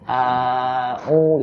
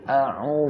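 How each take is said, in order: First: The vowels are drawn out long. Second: The vowels are kept short. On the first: The speaker calls it wrong. "kalau hamzah itu tidak panjang, jadi tidak begini bacanya" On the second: The speaker calls it right. "tapi a u gitu kan"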